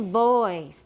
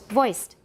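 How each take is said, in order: First: The O vowel is drawn out long. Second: The O vowel is kept very short. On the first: The speaker calls it wrong. "people make the O part too long" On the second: The speaker calls it right. "那个 O 是很短的"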